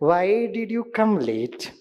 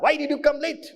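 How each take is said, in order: First: It is said in a gentle, loving tone. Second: It is said in an angry, scolding tone. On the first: The speaker cares about the student. The speaker calls it right. "वही dialogue जो गुस्से से बोलता था मैं बड़े प्यार से बोलने लगा" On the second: The speaker is annoyed at the student. The speaker calls it wrong. "और मैं भड़कता था"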